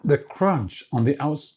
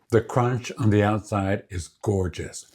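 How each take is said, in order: First: Talking with a mouth full of cookie; muffled, speaking around a mouthful. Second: Said in the usual way. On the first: Real, not acted. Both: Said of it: "talking with my mouth full".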